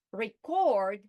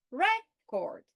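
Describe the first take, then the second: First: "record" as re-CORD, second syllable louder and longer; stress on second syllable. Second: "record" as REC-ord, first syllable high; stress on first syllable. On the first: Teacher changing meaning by stress, "record" said re-CORD. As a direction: hit CORD in "record", the verb. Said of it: "by changing the stress". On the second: Teacher changing meaning by stress, "record" said REC-ord. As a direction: hit REC in "record", the noun. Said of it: "but I will also say". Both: Shown as a demonstration.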